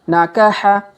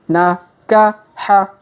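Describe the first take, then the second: First: The syllables are read quickly as one word. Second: The syllables are read slowly and separately. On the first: "Kalau dipercepat" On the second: "kita baca pelan-pelan"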